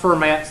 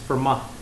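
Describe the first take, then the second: First: The final t is sounded. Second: The final t is silent. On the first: The speaker calls it wrong. "it's not Fermat's theorem" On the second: The speaker calls it right. "it's Fermat"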